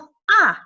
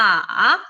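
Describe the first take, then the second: First: The pitch falls sharply from high to low. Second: The pitch dips low, then rises. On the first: "오에서 일까지 확 내려주는" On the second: "일로 내려갔다가 사까지 올려주는"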